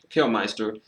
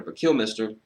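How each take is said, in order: First: Kilmister with a long i, kil-MY-ster; Kilmister, second syllable like my; alternate Kilmister. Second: Kilmister with a short i, kil-MISS-ter; Kilmister, short second i; Kilmister pronunciation. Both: Shown as a demonstration. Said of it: "I prefer Kilmister".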